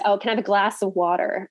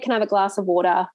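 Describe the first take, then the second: First: It is said in an American accent. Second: It is said in an Australian accent.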